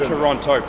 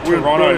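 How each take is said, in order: First: The second T sound is pronounced. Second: The second T sound is dropped. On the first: The speaker calls it wrong. "not Toronto" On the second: The speaker calls it right. "Gotta say Toronto"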